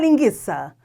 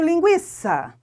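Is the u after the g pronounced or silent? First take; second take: silent; pronounced. First: The u after the g is silent. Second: The u after the g is pronounced. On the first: The spelling change is taken to change the pronunciation. The speaker calls it wrong. "Não é para falar linguiça" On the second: Only the diaeresis was lost; the pronunciation stays. The speaker calls it right. "Você continua falando linguiça. Não muda. A fonética continua"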